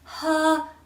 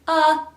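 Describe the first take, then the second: First: The vowel starts with a puff of breath. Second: The vowel starts with a sharp catch. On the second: "first glottal"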